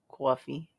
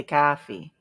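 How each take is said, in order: First: Coffee as kwaw-fee, rounded o; Boston coffee. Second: Coffee with a flat open ah; coffee said plain. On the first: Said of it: "You say coffee, not coffee". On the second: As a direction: say coffee as kah-fee. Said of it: "You say coffee". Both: Shown as a demonstration.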